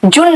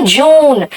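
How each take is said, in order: First: जून cut to a short u, like jun. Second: जून with a drawn-out oo; long oo in जून. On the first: Teacher showing the wrong take, short-vowel जून. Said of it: "जून नहीं कहा". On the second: Teacher modelling the month for students, long-vowel जून. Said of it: "यहां पे मैं कह रही हूं जून". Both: Shown as a demonstration.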